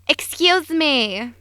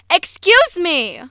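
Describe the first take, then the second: First: It is said softly. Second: It is said loudly.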